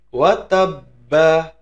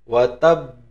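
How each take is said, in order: First: The word ends with a final a vowel. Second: The word ends on a held, bouncing b. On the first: The reading continues without stopping. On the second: The reading stops at the end of the verse.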